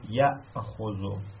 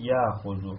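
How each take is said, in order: First: The hamza is kept as a glottal stop. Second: The hamza becomes a long vowel, no glottal stop. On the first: "نگید یأخذو" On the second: "میتونید بخونید یأخذو"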